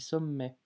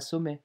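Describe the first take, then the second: First: The m sound is held long and doubled. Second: The m sound is short and single. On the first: "j'abuse un petit peu hein, sur la, la prononciation" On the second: "on dit pas sommet"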